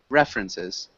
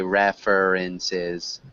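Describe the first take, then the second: First: The second 'er' syllable is dropped. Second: The second 'er' syllable is fully pronounced. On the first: The speaker calls it right. "that second er, it actually doesn't exist in the pronunciation" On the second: The speaker calls it wrong. "we would never say references"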